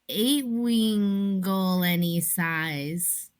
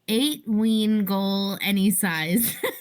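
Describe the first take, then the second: First: It is said slowly and languidly. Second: It is said at a normal pace.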